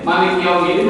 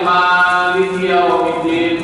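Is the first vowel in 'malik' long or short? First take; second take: short; long. First: The first vowel of malik is kept short. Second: The first vowel of malik is drawn out long. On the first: It means the one who owns the day of judgment. "kalau mimnya pendek" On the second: It means king of the day of judgment. "Yang maliknya panjang"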